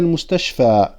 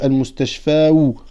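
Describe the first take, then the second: First: The word ends on a plain long a. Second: The word ends with an added u sound. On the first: The nominative ending is only implied. The speaker calls it right. "on ne le prononce pas sur la alif al-maqsoura" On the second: The nominative ending is pronounced aloud. The speaker calls it wrong. "Normalement on devrait dire المستشفى ou, mais c'est trop difficile à prononcer"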